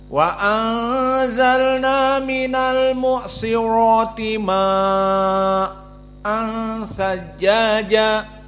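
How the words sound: The vowel is held long, then briefly stopped. "qiraah Hamzah"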